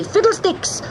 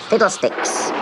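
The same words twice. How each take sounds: First: "Fiddlesticks" cried high and strong; loud shout. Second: "Fiddlesticks" breathed as a whisper, not shouted. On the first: Acted. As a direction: yell the magic word as he lands. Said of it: "shouting loudly". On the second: Retold or imitated. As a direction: hush the magic word.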